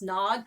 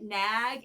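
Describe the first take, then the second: First: The vowel is the open 'o' of 'bog'. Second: The vowel is the front 'a' of 'bag'. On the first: This is how the band says the name. "it's pronounced nog" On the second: This is how many people say the name. "a lot of people have been pronouncing it nag"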